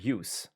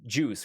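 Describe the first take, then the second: First: The word begins with a y sound. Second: The word begins with a j sound. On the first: "We have use" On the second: "We don't have um"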